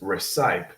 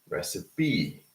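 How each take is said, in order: First: The word is said with two syllables. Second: The word is said with three syllables. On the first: The speaker calls it wrong. "So it's not uh, just recite" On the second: The speaker calls it right. "it's actually recipe, okay? Recipe. So this also has three syllables"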